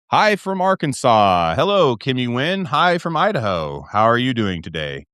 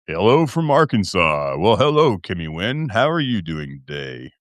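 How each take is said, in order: First: Said in the usual way. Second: Low, smooth host greeting; late-night host voice, dropping lower to the end; put-on deep voice. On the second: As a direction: let the greeting sink deep. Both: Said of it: "See, I broke it again".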